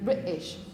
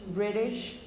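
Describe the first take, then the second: First: The middle t is a glottal stop. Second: The middle t is a quick flap. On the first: The speaker is British. "if you were British and you used these glottal stops" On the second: The speaker is American. "If you were American, how would you pronounce it? ... with this sort of flap R probably"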